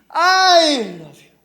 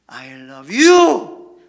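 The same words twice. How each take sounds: First: The stress falls on the word I. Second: The stress falls on the word you. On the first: I, not someone else, love you. "먼저 I라는 단어에게 강세를 주면은요" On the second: It is you, not anyone else, that is loved. "나는 너를 사랑해. 저 여자가 아니야"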